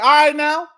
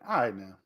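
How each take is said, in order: First: It sounds like a friendly greeting. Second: It sounds tired and wanting to end.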